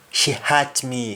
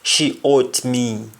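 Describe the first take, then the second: First: "hurt" with H sounded and open vowel; English pronunciation. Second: "ought" for hurt, no H, O vowel, slow; Jamaican pronunciation. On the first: Teacher translating the example into English, H sounded. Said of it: "to hurt somebody". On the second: Teacher giving a Jamaican example of hurting somebody, H dropped. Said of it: "again we say ought". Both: Shown as a demonstration.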